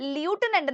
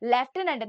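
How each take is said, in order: First: The word begins with a 'loo' sound. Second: The word begins with a 'lef' sound. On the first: The speaker calls it wrong. "ല്യൂട്ടനന്റ് എന്നല്ല pronounce ചെയ്യാ" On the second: The speaker calls it right.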